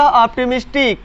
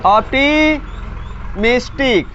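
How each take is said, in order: First: Said in the usual way. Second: optimistic drawn out in two parts; slow, split word. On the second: Shown as a demonstration. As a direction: stretch the term, pausing midway for learners. Breaks the term up for class.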